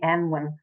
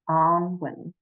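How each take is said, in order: First: The first vowel is an 'eh' sound. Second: The first vowel is an 'ah' sound. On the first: The speaker calls it wrong. "if they call me Anwin repeatedly" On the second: The speaker calls it right. "the pronunciation is Anwin"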